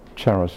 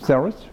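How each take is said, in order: First: The name is said with Italian pronunciation. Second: The name is said with English pronunciation. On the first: "in Italian, it's the pronunciation Charos" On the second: "in English"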